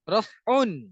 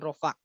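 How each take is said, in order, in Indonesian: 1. Kata ini berakhir dengan bunyi -un. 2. Kata ini berakhir dengan vokal biasa.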